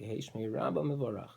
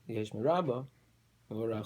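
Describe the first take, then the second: First: The words run together without a pause. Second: There is a pause after Rabbah. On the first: It allows both interpretations. The speaker calls it right. "say them together" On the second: It means only: let His great name be blessed. The speaker calls it wrong. "if you pause after Rabbah"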